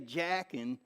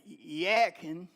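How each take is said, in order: First: The name begins with an English J sound. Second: The name begins with an H-like sound. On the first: "Now we say Jackin"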